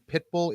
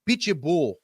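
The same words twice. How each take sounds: First: The name is pronounced the plain English way. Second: The name is pronounced the Brazilian way. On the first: The speaker calls it wrong. "You guys are saying [name]" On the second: The speaker calls it right. "I want to correct your pronunciation. ... He's Brazilian"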